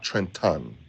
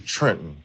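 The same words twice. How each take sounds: First: Trenton is said with an outsider's pronunciation. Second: Trenton is said with the local pronunciation. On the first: This is how people from elsewhere say it. The speaker calls it wrong. "not Trenton" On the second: This is how people from the city say it. The speaker calls it right. "I say Trenton"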